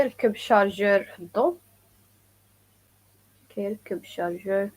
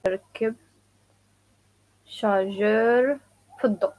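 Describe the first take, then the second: First: "ركب الشارجور في الضوء" at native speed; quick natural delivery; fast full-speed repeat. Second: "ركب", "الشارجور", "في الضوء" each set apart; slow chunked drill; word by word, slow. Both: Shown as a demonstration. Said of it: "some people say also".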